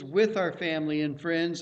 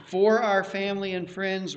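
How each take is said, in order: First: With stressed, said lower. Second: For stressed, rest falling; for our family, not with. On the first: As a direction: lean on with. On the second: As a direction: lean on for. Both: Shown as a demonstration.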